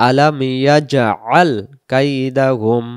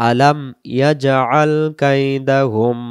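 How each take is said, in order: No difference in how they are said.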